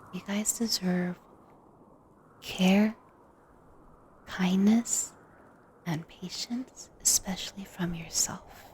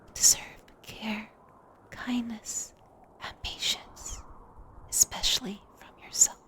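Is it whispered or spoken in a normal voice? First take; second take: normal voice; whispered. First: It is spoken in a normal voice. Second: It is spoken in a whisper.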